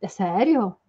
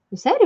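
First: Said in the usual way. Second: High, loud incredulous É sério?; mock disbelief. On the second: Shown as a demonstration. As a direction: squeak out É sério? in playful shock.

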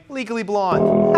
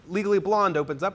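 First: Legally Blonde drawn out slowly and loudly; dramatic title announcement. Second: Said in the usual way. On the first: Shown as a demonstration. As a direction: say Legally Blonde slow and big, like a showstopper. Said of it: "Anyway, Legally Blonde. Ha!".

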